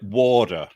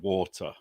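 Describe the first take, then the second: First: The middle consonant sounds like a soft D. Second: The middle consonant sounds like a clear T.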